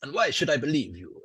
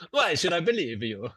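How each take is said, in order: First: A slight Italian tinge; slightly Italian. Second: Hammed-up Italian, pitched higher; outlandish Italian accent. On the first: Acted. Game master as doubting lanista, slightly Italian accent. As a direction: let a little Italian slip in. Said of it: "That's gone slightly Italian there". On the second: Game master as Roman lanista, outlandish Italian accent. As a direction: exaggerate the Italian lilt. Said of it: "you could do an outlandish Italian accent".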